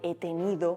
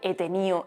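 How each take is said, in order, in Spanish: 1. La d entre vocales se pronuncia. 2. La d entre vocales se pierde. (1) "en lugar de he tenido" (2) "esto es muy normal que se pierda en Andalucía. O sea, decir he tenido"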